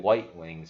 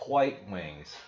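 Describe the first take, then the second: First: White starts with a plain W sound. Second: White starts with a breathy HW sound.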